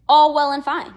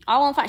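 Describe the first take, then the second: First: Loud breezy shrug. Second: Said in the usual way. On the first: Real, not acted. To viewers excusing the woman, loud breezy shrug. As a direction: toss it off lightly.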